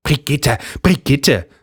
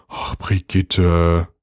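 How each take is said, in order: First: High, sing-song mimicry of him; pitched-up parody of husband; mocking her husband. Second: Weary husband. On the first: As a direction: ape his weary tone mockingly. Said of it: "äffte seine Frau ihn nach". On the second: A narrator's reading. Carsten weary sigh.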